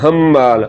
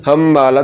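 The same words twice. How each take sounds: Both takes have the same delivery.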